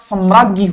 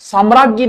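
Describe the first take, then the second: First: The first vowel is short. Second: The first vowel is long. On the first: The speaker calls it right. "सम्राज्ञी होता है" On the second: The speaker calls it wrong. "साम्राज्ञी नहीं होता"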